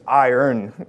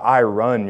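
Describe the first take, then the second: First: The word sounds like 'eye-urn'. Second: The word sounds like 'I run'. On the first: The speaker calls it right. "no, it's iron" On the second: The speaker calls it wrong. "not I run your clothes"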